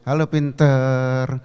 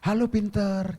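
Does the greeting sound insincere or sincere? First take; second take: insincere; sincere. First: The greeting sounds mocking and insincere. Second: The greeting sounds warm and sincere. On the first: The speaker does not mean the praise. The speaker calls it wrong. "Itu nggak tulus" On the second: The speaker truly means the praise. The speaker calls it right. "Ucapkan kalimat-kalimat yang keren"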